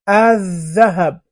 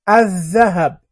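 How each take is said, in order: The two takes are said the same way.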